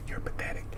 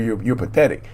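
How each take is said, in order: First: A faint unvoiced whisper, close and cruel. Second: Said in the usual way. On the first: Shown as a demonstration. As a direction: breathe it like a voice inside the head. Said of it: "the whisper in your head". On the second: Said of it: "in your ear screaming and yelling".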